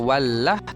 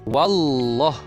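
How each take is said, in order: First: The L in wallah is light and thin. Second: The L in wallah is heavy and thick. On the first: The speaker calls it wrong. "Siapa yang baca wallah? Salah" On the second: The speaker calls it right. "Mesti baca wallah"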